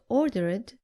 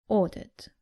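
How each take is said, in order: First: The ending is an extra 'id' syllable. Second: The ending adds no extra syllable. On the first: The speaker calls it wrong. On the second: The speaker calls it right.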